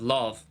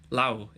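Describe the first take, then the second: First: The word ends in a V sound. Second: The word ends in a W-like sound. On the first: This is the southern and western way of saying it. "instead of love" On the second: This is the northern, Ulster way of saying it. "even words like hand will be lau"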